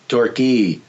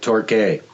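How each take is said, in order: First: It is said with the British pronunciation. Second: It is said with the local pronunciation. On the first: "I believe the British call it Torquay" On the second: "most of us call it Torquay"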